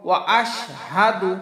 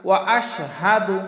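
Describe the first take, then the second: The two takes are said the same way.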